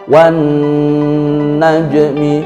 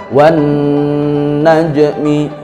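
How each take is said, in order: The two takes are said the same way.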